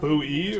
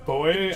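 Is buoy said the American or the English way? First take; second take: American; English. First: Buoy is said the American way. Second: Buoy is said the English way. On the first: "Americans pronounce buoy as" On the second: "the English pronunciation is actually buoy"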